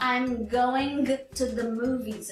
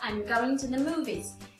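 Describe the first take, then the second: First: The final g of going is clearly pronounced. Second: The final g of going is dropped. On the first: The speaker calls it wrong. "a gente não fala" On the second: The speaker calls it right. "a gente fala"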